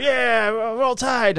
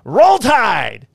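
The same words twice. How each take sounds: First: High, slow drawn-out Roll Tide; hammered Alabama fan answering the cop's cheer, slow and high; drunk fan. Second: Loud high football cheer, Roll Tide; yelling Roll Tide. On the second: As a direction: shout it like a stadium chant. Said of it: "I'm in the background going". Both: Retold or imitated.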